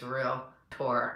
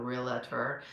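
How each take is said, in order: First: The word is said with two syllables. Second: An extra vowel makes three syllables. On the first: The speaker calls it right. "remember, it's real tour" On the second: The speaker calls it wrong. "a lot of people get used to putting an A in there"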